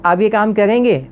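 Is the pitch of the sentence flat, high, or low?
high. The sentence is said with a raised pitch. It is a question the listener can answer yes or no. "ऊंची आवाज़ में कहता हूँ"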